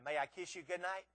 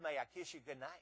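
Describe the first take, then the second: First: It is said louder still. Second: It is said at a quiet, normal volume.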